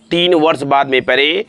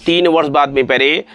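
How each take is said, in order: Both takes have the same delivery.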